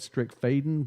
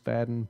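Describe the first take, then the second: First: The last syllable has a long 'ay' vowel. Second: The last syllable has a short 'a' vowel. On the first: The speaker calls it wrong. "It looks like it should be said Strickfaden" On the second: The speaker calls it right. "but it is Fadden"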